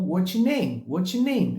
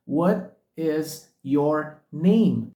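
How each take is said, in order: First: "What is your name" collapsed to "whatcha name"; connected speech. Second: "What is your name" word by word, very slow; slow and separated. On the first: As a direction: blend it all into "whatcha name". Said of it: "soa como". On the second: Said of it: "De forma tão pausada soa". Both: Shown as a demonstration.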